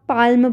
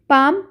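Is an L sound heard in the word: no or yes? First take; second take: yes; no. First: The word is said with an L sound. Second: The word is said without an L sound. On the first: The speaker calls it wrong. "कई बार लोग पाल्म पढ़ते हैं तो वो गलत है।" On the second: The speaker calls it right. "पाम में एल का साउंड नहीं आता है।"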